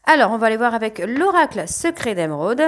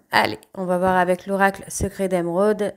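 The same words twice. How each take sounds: First: Cracking, rough voice. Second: Said in the usual way. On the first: Real, not acted. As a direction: voice cracking mid-sentence. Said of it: "un peu la voix qui part en, en vrille". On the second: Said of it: "la voix qui part en vrille".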